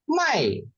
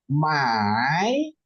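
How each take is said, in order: First: The pitch falls sharply from high to low. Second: The pitch dips low and then rises. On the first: "hentakin, ada empat ini" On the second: "nadanya tiga di ayun"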